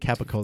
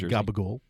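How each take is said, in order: First: The word begins with a k sound, ending -cola. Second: The word begins with a g sound, ending -gool. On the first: This is the form people from New Jersey do not use. "they wouldn't say Capicola" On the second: This is the form people from New Jersey use. "They'd say Gabagool"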